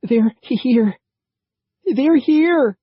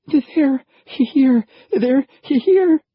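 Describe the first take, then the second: First: Panicked, breathless high yell; higher and louder frantic warning; terrified. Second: Panicked high yell; frantic, much higher and louder; terrified. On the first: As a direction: gasp it out in terror. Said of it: "gasping and looking anxiously back". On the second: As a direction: scream the warning in terror. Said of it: "his eyes wide with terror". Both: A narrator's reading.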